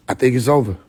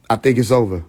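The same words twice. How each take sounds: The two takes are said the same way.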